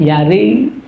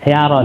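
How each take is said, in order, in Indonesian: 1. Vokal akhir condong ke bunyi i. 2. Vokal akhir adalah bunyi a terbuka. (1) "ada yang lebih ke kasroh" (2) "yaro itu kan fathah gitu"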